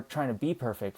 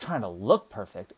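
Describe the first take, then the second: First: "be" stressed against what follows. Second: "look" punched louder; stress on LOOK. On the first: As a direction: lean on the word "be". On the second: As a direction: hit "look" hard as the contrast. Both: Real, not acted. Contrasts being with looking perfect.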